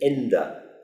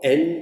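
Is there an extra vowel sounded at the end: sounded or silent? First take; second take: sounded; silent. First: The word ends with an extra final vowel. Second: The word ends without an extra final vowel.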